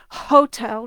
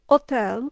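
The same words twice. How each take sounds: First: The word starts with an audible h sound. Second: The word starts with no h sound. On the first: The speaker calls it wrong. "They don't say hotel" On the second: The speaker calls it right. "the consonant H is silent"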